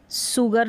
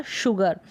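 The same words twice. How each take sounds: First: सुगर with an "s" at the front; wrong pronunciation. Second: शुगर with "sh" at the front; correct pronunciation. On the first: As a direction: pronounce सुगर as SOO-gur. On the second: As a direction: pronounce शुगर as SHOO-gur. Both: Shown as a demonstration. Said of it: "कभी भी सुगर नहीं पढ़ा".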